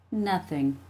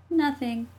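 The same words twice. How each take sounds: First: Said in the usual way. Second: Put-on higher, innocent child voice; little sister's voice. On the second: A narrator's reading. Jessie hiding the fight from mom, innocent. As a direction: echo it innocently as a kid sister.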